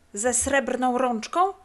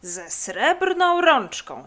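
First: „Ze srebrną rączką?” slow, rising to a question; slow, higher checking question on „rączką”. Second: Loud, drawn-out, higher exclamation; victorious, stretched confirmation; triumphant. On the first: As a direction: prompt hopefully, lifting „rączką” at the end. Eager prompting question, then confirmed. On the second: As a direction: call it out in slow triumph, swelling on srebrną. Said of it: "zawołał triumfalnie leniwiec". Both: Acted.

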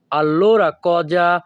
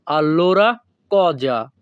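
First: Allora cosa drawn out slowly, each syllable clear; slow it down for learners to echo; careful slow classroom demo; slow teaching pace. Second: Said in the usual way. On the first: Shown as a demonstration. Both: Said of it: "দুই থেকে তিনবার বলার চেষ্টা করব".

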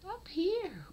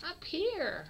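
First: Whispered high call. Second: Much higher call up to the kitten. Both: Real, not acted. Calling kitten to camera.

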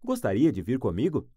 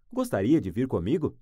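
The two takes are said the same way.

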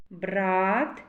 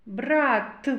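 First: "Брат" with the А drawn out, lower and rising; vowel highlighted. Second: "Брат" with a separate, released final Т; final consonant highlighted. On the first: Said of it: "А. Голосний". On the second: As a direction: finish "Брат" on a distinct Т, falling tone. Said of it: "Т. Твердий приголосний". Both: Shown as a demonstration.

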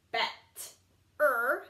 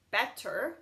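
First: Bet-er split into two parts; Bet-er with a break; sounded out. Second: Said in the usual way. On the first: Shown as a demonstration. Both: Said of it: "Same with this one".

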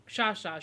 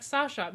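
First: Shasha with sh in both syllables; intended name. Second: Sasha with a plain s at the start; s first, sh only in the middle of Sasha; misheard name. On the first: Shown as a demonstration. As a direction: say Shasha as SHAH-shah. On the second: Retold or imitated. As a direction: say Sasha as SAH-shuh, starting with s. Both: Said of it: "meaning Shasha".

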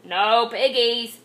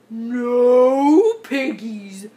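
First: Slow, lightly voiced duck; a hint of a quack in the words. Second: Very slow, loud cow drawl; big bovine voice, vowels stretched; mooing cow. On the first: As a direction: drawl it like a storybook duck. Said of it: "quacked the duck". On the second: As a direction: moo the words out long. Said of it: "mooed the cow". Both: A narrator's reading.

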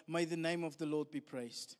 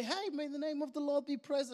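First: Low, hushed and solemn; Job's bowed-down praise; reverent acceptance. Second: Light, chirpy and carefree; breezy mock praise. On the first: Acted. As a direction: say it as quiet surrender to God. Job's reverent words after his loss. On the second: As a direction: toss it off like good news. Cheery praise after losing a job.

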